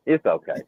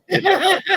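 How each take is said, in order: First: Said in the usual way. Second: High, rising mock comfort; fake-sweet consolation to a hurt fan; mock soothing. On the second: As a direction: coo it like soothing a baby. Consoling Dana after her dig.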